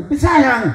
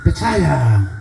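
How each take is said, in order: First: High, quick-falling glib reply; glib answer. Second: Low, falling, careless reply; offhand answer. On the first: Petrus answering Tuhan's call on a stroll, glib and high. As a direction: chirp it back automatically. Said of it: "sama ke Tuhan sudah tahu". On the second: Petrus answering Tuhan without meaning it, offhand. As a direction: toss it off without thinking. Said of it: "Kalau tadi Tuhan hanya jawab, asal jawab saja". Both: Acted.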